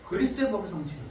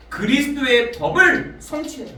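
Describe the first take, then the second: First: "그리스도의 법을 성취해라" repeated softer, falling, stress on 그리스도의; softly repeated. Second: "그리스도의 법을 성취해라" proclaimed louder and higher, stress on 법을. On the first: Preacher quietly repeating the verse to the congregation, soft. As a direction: echo "그리스도의 법을 성취해라" quietly to let it sink in. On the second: Preacher proclaiming Paul's conclusion to the congregation, loud. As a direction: ring out "그리스도의 법을 성취해라" with weight on 법을. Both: Shown as a demonstration. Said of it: "갈라디아서 육 장 이 절에 보니까".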